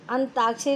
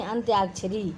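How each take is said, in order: First: अंताक्षरी with plain "taa"; dropped y. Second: अंत्याक्षरी with "tyaa"; correct y glide. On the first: Teacher citing the error, अंताक्षरी without y. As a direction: say अंताक्षरी as "antaakshari". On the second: Teacher correcting the error, अंत्याक्षरी with y. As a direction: say अंत्याक्षरी as "antyaakshari". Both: Shown as a demonstration. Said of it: "नहीं".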